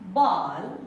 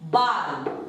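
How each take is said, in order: First: The vowel lies between 'aa' and 'o'. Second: The vowel is a plain long 'aa' sound. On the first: The speaker calls it right. "आ और ओ के बीच का ध्वनि" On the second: The speaker calls it wrong. "ये भी गलत है"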